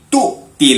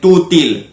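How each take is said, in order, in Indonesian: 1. Hentian glotal memisahkan dua suku kata. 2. Suku katanya menyambung tanpa hentian glotal. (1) "ada hamzah di situ" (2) "bukan tutil"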